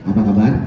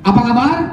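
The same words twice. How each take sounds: First: It is asked softly, with low energy. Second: It is asked loudly, with more energy.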